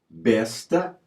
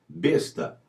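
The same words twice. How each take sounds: First: The stressed e is pronounced open. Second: The stressed e is pronounced closed. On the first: It names a crossbow-like weapon. "recomenda-se vogal aberta" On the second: It names a pack animal. "Vogal fechada"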